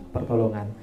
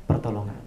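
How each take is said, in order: Both takes have the same delivery.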